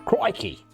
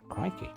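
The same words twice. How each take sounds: First: It is said with an exaggerated Australian flourish. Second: It is said plainly, without an Australian flourish. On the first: The speaker calls it right. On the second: The speaker calls it wrong.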